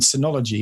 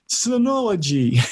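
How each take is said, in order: First: The word is said in the speaker's usual accent. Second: The word is said in a put-on American accent.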